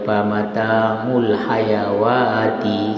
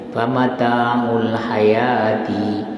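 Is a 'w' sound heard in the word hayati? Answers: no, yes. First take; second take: yes; no. First: The word is said with a w sound. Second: The word is said without a w sound. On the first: The speaker calls it wrong. "kalau orang tidak belajar maka dia kata ya famata'ul hayawati, salah" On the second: The speaker calls it right. "Yang betul famata'ul hayatid dunya"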